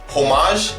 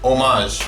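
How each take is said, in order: First: The word starts with a sounded H. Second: The word starts without an H sound. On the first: The speaker calls it wrong. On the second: The speaker calls it right.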